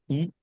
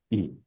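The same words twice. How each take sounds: First: ई as a brief single beat; quick short ई; short vowel. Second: ई held longer; lengthened, steady ई; long vowel. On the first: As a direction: keep the ee of ई short. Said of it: "एक मात्रा में बोला जाएगा". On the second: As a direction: draw out the ee of ई. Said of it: "ज्यादा समय के लिए बोला जाएगा". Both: Shown as a demonstration.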